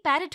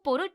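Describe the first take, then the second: First: The first vowel sounds like 'a'. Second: The first vowel sounds like 'o'. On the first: The speaker calls it right. "पैरट होता है" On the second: The speaker calls it wrong. "वो पोरोट नहीं"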